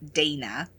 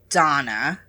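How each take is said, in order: First: It is said the American way. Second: It is said the other speaker's non-American way.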